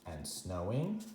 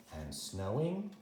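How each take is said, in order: Both takes have the same delivery.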